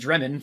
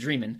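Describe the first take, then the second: First: The first vowel sounds like 'eh'. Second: The first vowel sounds like 'ee'. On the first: The speaker calls it wrong. "I've been mispronouncing his name" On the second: The speaker calls it right. "it's actually David Dreamin"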